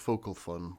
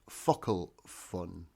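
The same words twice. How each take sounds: First: Focal is read as English spelling suggests. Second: Focal is said with its Irish pronunciation. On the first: The speaker calls it wrong. "It looks like it says focal fun, but that's not how you pronounce it" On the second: The speaker calls it right. "The actual name is pronounced focal fun"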